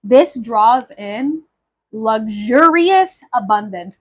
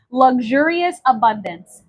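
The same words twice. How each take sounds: First: Slow, weighty announcement; slow reveal. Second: Said in the usual way. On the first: Acted. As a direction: draw it out for effect. Reveals herb meaning, slow.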